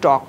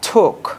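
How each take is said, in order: First: The t is said the Bengali way. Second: The t is said the English way. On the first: The speaker calls it wrong. "আমরা বলি টক" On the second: The speaker calls it right. "এটার উচ্চারণটা করতে হবে তোমার হলো ঠোক"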